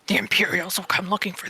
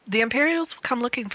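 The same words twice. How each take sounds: First: It is said in a put-on deep voice. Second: It is said in an ordinary speaking voice.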